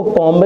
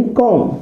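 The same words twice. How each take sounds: First: कॉम्ब with the final b sounded; wrong pronunciation. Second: कॉम ending on m, no b; silent b. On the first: Teacher shows the mistaken reading, कॉम्ब with audible b. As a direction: voice the b after m in कॉम्ब. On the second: Teacher reads the spelled word, कॉम with silent b. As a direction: close कॉम on the m. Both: Shown as a demonstration. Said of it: "इसको कॉम्ब नहीं पढ़ते".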